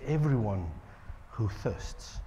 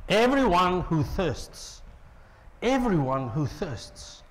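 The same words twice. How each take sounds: First: Much softer, low and hushed; soft invitation. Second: Slow, deliberate invitation; slow emphasis. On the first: Prophet inviting the thirsty, much softer and hushed. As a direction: draw them in quietly. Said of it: "He says". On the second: Preacher repeating the invitation slowly. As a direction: let each word land slowly. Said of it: "repeated slowly for emphasis". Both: Acted.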